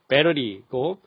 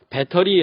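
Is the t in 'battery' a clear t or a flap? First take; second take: flap; clear t. First: The t is a soft, rolled flap. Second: The t is a clear, crisp t sound. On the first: "T가 굴러가듯" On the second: "우리가 보통 배터리 하는 거"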